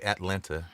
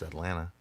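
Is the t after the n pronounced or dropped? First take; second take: pronounced; dropped. First: The t after the n is clearly pronounced. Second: The t after the n is dropped. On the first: The speaker calls it wrong. "We don't say Atlanta" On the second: The speaker calls it right. "it's Atlanta"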